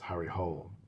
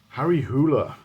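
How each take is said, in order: First: The surname is said the English way. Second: The surname is said the Norwegian way. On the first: This is the anglicized way of saying the name. "I'd always pronounced it as" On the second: This is how it is said in the name's home country. "That's how it's pronounced in, in Norway"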